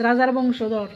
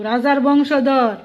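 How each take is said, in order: First: Said in the usual way. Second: "রাজার বংশধর" stretched slow with falling stress on বংশধর; slow, weighty "রাজার বংশধর". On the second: Shown as a demonstration. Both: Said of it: "একটু সম্মান দো".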